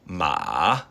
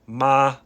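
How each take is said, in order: First: It is said with the third tone. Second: It is said with the first tone.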